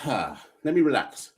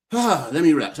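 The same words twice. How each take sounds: First: Slow, sighing, catching breath; sighing to relax. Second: Sighing, then picking back up; sighing, firmer. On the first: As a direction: exhale and slow right down. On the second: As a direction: shake it off with a sigh. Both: Real, not acted. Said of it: "I am out of breath".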